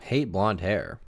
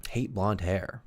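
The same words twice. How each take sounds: First: Drawn out, falling; musing over the phrase; slow repeat. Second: Said in the usual way. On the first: Shown as a demonstration. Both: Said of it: "He would always tell me he hated blonde hair".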